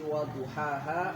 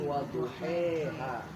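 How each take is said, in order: First: The second-last vowel is an open 'a' sound. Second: The second-last vowel is an 'e' sound.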